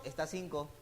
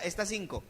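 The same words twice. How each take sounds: First: Curt tax collector. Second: Tax collector. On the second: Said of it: "Mateo decía". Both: Retold or imitated.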